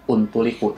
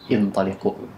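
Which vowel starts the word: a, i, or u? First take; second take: u; i. First: The word begins with a u vowel. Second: The word begins with an i vowel. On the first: The speaker calls it wrong. "bukan untuliku" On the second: The speaker calls it right. "tapi intoliku"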